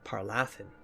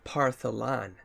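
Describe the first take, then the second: First: The name is said as Par-la-than. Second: The name is said as Par-tho-lan. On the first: The speaker calls it wrong. "not Parlathan. Why was I saying Parlathan?" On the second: The speaker calls it right. "Staff of Partholan, not Parlathan"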